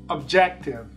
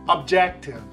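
Both takes have the same delivery.

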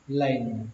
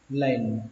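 First: It is said quickly as a single syllable. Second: The same.

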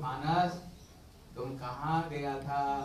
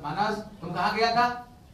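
First: It sounds knowing, like the answer is known. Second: It sounds disapproving, like a reproach.

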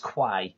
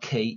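First: It begins with a 'kw' sound, like 'kway'. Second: It begins with a plain 'k' sound, like 'key'. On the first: The speaker calls it right. "it's Quay" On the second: The speaker calls it wrong. "It's not Key"

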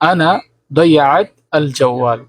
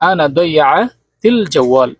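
First: The middle words are said separately and slowly. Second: The middle words are run together quickly.

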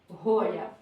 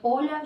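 First: The name starts with an added h-like consonant. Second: The name starts directly with a vowel.

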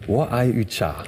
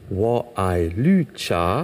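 First: The third word begins with a 'y' sound. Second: The third word begins with an 'l' sound. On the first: It sounds like loving yoga. The speaker calls it wrong. "haben Sie gerade gemeint, dass Sie ein ganz großer Yoga-Liebhaber sind?" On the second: It means loving green tea. The speaker calls it right. "jetzt klingen Sie fast genau wie ein Chinese"

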